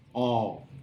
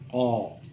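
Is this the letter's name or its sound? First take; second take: sound; sound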